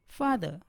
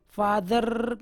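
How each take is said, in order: First: फादर ending "-duh", without any r; silent R. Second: फादर with a long rolled final r; wrongly pronounced R. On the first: Teacher modelling the right way, फादर with silent r. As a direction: drop the last r in फादर. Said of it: "आर का उच्चारण नहीं के बराबर". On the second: Teacher showing what is wrong, फादर with drawn-out rolled r. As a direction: trill the r at the end of फादर. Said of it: "फादर कहना गलत है". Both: Shown as a demonstration.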